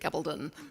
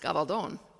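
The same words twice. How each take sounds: First: The name is said British-style with very tight lips. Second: The name is said with Spanish pronunciation. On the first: "The British pronunciation is usually Gabaldon, spoken with very tight lips" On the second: "were we speaking Spanish, it would be pronounced Gabaldon"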